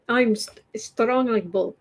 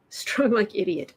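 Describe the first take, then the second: First: Put-on Russian accent. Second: Said in the usual way. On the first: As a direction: play a tough Russian strongman in a Russian accent. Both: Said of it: "worst Russian accent ever".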